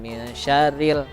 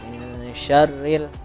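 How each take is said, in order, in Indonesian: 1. Bunyi n tetap terpisah dari r. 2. Bunyi n menyatu langsung dengan r. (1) "Tadi terbaca" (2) "Jadi langsung dimasukkan ke huruf ro"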